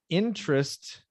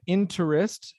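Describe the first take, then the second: First: The stress is on the first syllable. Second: The stress is not on the first syllable. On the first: The speaker calls it right. "the stress syllable is the first syllable" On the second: The speaker calls it wrong. "the first time you said interest"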